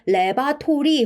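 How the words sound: It is said with Korean-style syllables. The speaker calls it wrong. "우리가 레바토리 혹은 레브라토리 뭐 다양하게 발음을 하시는데요"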